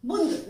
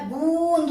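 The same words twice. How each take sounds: First: "बूंद" short, as bund; wrong short vowel. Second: "बूंद" with a drawn-out nasal oo; correct long vowel. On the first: Teacher showing the error, "बूंद" with short u. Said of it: "बूंद नहीं होता". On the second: Teacher correcting students, "बूंद" with long oo. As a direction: stretch "बूंद" into boooond. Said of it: "बूंद होता है". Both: Shown as a demonstration.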